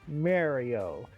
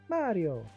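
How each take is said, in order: First: The name is said with flat, level pitch. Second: The name is said with high, happy pitch. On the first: The speaker calls it wrong. "it sounds so flat" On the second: The speaker calls it right. "It's supposed to be high and happy"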